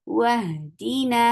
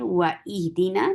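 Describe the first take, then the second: First: The waw runs straight into the ha. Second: A glottal stop separates wa from ihdina. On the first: The speaker calls it right. "हम इस वाव को हा के साथ मिला देंगे" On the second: The speaker calls it wrong. "व इहदीना नहीं पढ़ेंगे"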